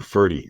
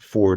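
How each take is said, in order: First: It is two syllables ending in an 'ee' sound. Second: It is one syllable with no final vowel. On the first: The speaker calls it right. "Ferdy is how he pronounces it" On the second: The speaker calls it wrong. "temptation is is pronounce it uh, Ford or something"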